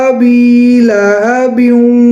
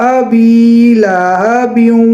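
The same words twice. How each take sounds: The two takes are said the same way.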